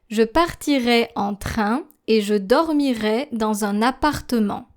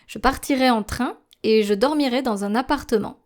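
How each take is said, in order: First: It is read at a slow pace. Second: It is read at a normal speaking pace.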